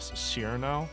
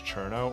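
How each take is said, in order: First: The name is said with an English pronunciation. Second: The name is said with a Japanese pronunciation. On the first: "English Cyrno" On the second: "like Japanese Cherno"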